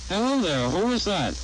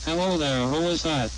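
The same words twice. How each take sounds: First: HELLO THERE and WHO IS THAT each rising high then falling; full natural rise and fall on "Hello there, who is that"; normal inflection. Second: "Hello there, who is that" with small rises and falls; reduced inflection. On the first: Demonstrator comparing inflections, normal swing on "Hello there, who is that". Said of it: "One-to-one". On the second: Demonstrator comparing inflections, narrowed swing on "Hello there, who is that". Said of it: "One-half-to-one". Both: Shown as a demonstration.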